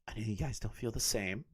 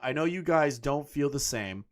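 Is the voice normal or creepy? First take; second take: creepy; normal. First: It is said in a creepy voice. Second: It is said in a normal voice.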